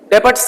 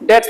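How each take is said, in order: First: The b sound is pronounced in the middle. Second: The b sound is left out entirely. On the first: The speaker calls it wrong. "डेबट्स नहीं बोलेंगे" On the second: The speaker calls it right. "डेट्स बोलेंगे"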